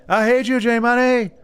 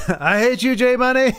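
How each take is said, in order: First: Light higher mock of a friend; imitating Lagmeister. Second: Laughing through the words. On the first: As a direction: echo a buddy's teasing line, higher. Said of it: "Lagmeister says that to me a lot". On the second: Real, not acted. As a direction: tease him while laughing. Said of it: "Like, I love it".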